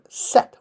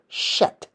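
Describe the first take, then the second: First: The name begins with a plain 's' sound. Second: The name begins with an 'sh' sound. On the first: The speaker calls it wrong. "English likes to butcher ancient Egyptian words" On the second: The speaker calls it right. "would actually be the proper way of saying it"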